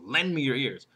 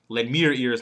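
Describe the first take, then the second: First: The word lend is stressed. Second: The word me is stressed. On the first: The request itself is what matters. "First one is what I want" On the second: Give them to me, not someone else. "Second one, not somebody else"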